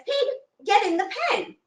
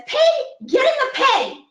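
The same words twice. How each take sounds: First: Put-on high, old woman voice telling the pig; old woman's order. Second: Put-on high and loud old woman yell. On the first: Old woman tells her stubborn pig to go in. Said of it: "she says". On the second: Old woman yells at the pig that won't budge. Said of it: "So she yells at the pig".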